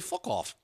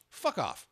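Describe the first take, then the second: First: It is said in a put-on British accent. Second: It is said in the speaker's plain accent.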